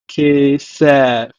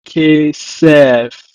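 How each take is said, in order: First: Kesef repeated, ke-sef; Hebrew pronunciation. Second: Kesef said loud, ke-sef; Hebrew pronunciation. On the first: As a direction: model Kesef again. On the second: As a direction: model Kesef clearly. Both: Shown as a demonstration. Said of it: "Hebrew as".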